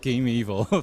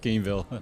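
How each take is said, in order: First: It is said as three syllables, like 'game evil'. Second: It is said as two syllables, like 'game-ville'. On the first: The speaker calls it wrong. "Not Game Evil" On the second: The speaker calls it right. "it's Gameville"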